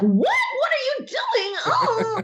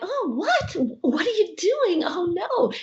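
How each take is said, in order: First: It is screamed loudly. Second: It is said calmly, without screaming.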